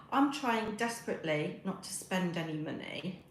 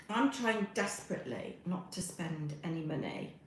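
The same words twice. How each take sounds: The two takes are said the same way.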